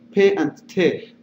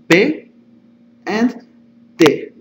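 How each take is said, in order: First: P and T are said the English way. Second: P and T are said the Spanish way. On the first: "in English, it, they sound like P and T" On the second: "but in Spanish, they sound like P and T"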